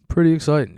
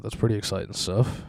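First: "Pretty" hit high and loud, "exciting" falling; mock excited repeat. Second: Said in the usual way. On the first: Shown as a demonstration. Host repeating himself to his listeners, with "Pretty" pushed up and loud. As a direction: lift "Pretty" up, then let "exciting" drop.

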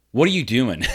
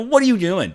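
First: Said in the usual way. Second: Laughing retelling. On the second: Retold or imitated. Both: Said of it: "I go".

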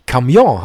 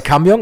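First: "Camion" as in French, ca-MION with nasal ending; French pronunciation. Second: "Kamjong" stressed on the first syllable, ending in -ng; Germanised Kamjong. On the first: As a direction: stress the second syllable of French "Camion". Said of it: "die Betonung auf der zweiten Silbe". („Camion“ französisch, hinten betont) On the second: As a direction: hit KAM in "Kamjong". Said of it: "die Betonung meistens auf der falschen Silbe". („Kamjong“ eingedeutscht, vorne betont) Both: Shown as a demonstration.

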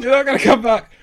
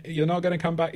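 First: Loud, high-pitched imitation of screaming girls; mock screaming. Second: Higher-pitched but unforceful token warning; half-hearted warning. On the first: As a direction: yell the warning over and over, hammed-up. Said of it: "two girls screaming over and over". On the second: Retold or imitated. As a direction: chime in uselessly, without real urgency. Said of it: "even less usefully than me".

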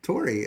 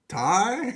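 First: Said in the usual way. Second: Loud, high questioning Boston "Tar?"; exaggerated Boston-accent guess. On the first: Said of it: "how do you say Tori". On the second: Shown as a demonstration. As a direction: try a doubtful, raised Boston accent on "Tar". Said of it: "Tori in a Boston accent".

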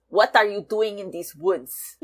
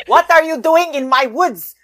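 First: Mock pseudo-Austrian cartoon elf accent. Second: Loud, high, hammed-up pseudo-Austrian elf accent. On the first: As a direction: try the line lightly in a weird pseudo-Austrian accent. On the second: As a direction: demand it indignantly in a weird cartoon Austrian accent. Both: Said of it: "weird pseudo-Austrian accent".

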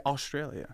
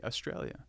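First: "Australia" with a full "Aw" opening; imitated American pronunciation. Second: "Australia" with the first vowel swallowed; Australian pronunciation. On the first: Coach imitates the learner, "Australia" with a full first vowel. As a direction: say "Australia" with every vowel, first syllable clear. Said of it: "You say Australia". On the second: Australian shows his own way, first vowel of "Australia" reduced. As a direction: say "Australia" lazily, opening on a weak uh. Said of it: "I say Australia". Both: Shown as a demonstration.

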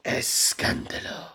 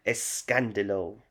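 First: Put-on spitty telenovela Spanish accent, slow; spray it out in a Spanish accent, slowly; spit take. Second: Put-on light telenovela Spanish accent. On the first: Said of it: "Oh, just spat everywhere". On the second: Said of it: "Like the accent, a bit foreign".

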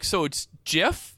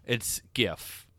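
First: "gif" said with a soft g like jif, asked slowly with a rise; soft g "gif", unsure question. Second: "gif" said with a hard g as in gift; hard g "gif", firm correction. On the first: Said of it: "She's like". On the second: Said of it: "And I just said". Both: Retold or imitated.

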